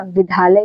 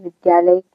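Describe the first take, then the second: First: विद्यालय said as "vidhalay"; mispronounced विद्यालय. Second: विद्यालय as "vidyalay"; correct द्य. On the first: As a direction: lose the y sound in विद्यालय. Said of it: "अरे ये तो ध है". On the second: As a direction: sound the y glide after द in विद्यालय. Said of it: "जबकि सही क्या है". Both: Shown as a demonstration.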